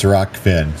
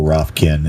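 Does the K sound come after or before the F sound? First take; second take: before; after. First: The K sound comes before the F sound. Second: The K sound comes after the F sound. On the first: The speaker calls it right. "it's R O K F I N" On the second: The speaker calls it wrong. "I pronounce it R O F K I N"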